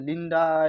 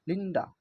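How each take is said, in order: First: The final vowel is drawn out long. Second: The final vowel is very short. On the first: The speaker calls it wrong. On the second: The speaker calls it right.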